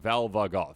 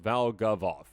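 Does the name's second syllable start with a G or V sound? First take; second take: V; G. First: The second syllable starts with a V sound. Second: The second syllable starts with a G sound. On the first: The speaker calls it wrong. "I think I put another V in there" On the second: The speaker calls it right. "No, it's Valgavoth. There we go"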